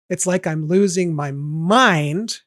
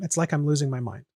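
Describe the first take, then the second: First: Slow, rising, landing hard on "mind"; wrong downbeat version. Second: Conversational reading. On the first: Showing how the lyric would sound landing on the downbeat, slow and heavy. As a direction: drag it out and stress "mind" on the beat. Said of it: "It's not like". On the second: Showing how the line sounds when just said aloud, casually. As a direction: toss "It's like I'm losing my mind" off like everyday speech. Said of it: "me just saying that ... sounds the same rhythm". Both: Shown as a demonstration.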